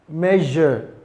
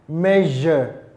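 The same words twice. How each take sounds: Both takes have the same delivery.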